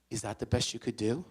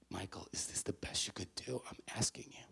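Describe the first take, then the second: First: Said in the usual way. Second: Near-whispered motherly appeal; hushed sincere question. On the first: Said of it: "with no passive aggressiveness". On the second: Retold or imitated. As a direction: ask it very softly, truly wanting an answer. Mother asks sincerely after his outburst.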